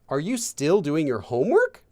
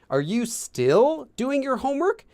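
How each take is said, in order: First: The word 'still' carries no special emphasis. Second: The word 'still' is strongly emphasized. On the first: A neutral question about whether the homework continues. "it's not that you're asking" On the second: Surprise that the homework is not finished yet. "you kind of want that emphasis on still"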